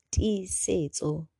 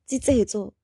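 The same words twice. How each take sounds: First: "Tisetso" said very slowly, syllable by syllable; slow careful name. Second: Said in the usual way. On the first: Shown as a demonstration.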